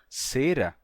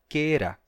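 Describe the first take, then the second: First: The word begins with an s sound. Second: The word begins with a k sound. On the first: This is how it is said in Portuguese today. "uma palavra como cera" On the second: This is how it was said in classical Latin. "Em latim se dizia quera"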